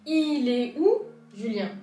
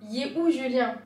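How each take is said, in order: First: The words 'il est' are said as two syllables. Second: The words 'il est' merge into one syllable 'yé'. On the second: "deviendra yé où Julien"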